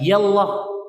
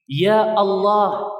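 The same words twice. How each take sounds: First: The opening of Allah is dropped and merged. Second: The opening of Allah is kept, not merged. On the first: The speaker calls it wrong. "bukan ya Allah" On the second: The speaker calls it right. "tidak dijatuhkan alif lamnya ... gitu cara bacanya"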